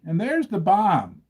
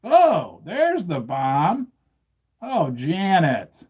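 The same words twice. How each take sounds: First: Said in the usual way. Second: Slow, hammed-up horror over the bomb; milk the disaster like a cartoon; drawn-out mock alarm at the bomb; mock dramatic dismay. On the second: Acting out bomb drop with props.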